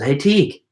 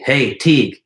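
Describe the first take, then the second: First: It sounds like a question, rising at the end. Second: It sounds like a statement, falling at the end.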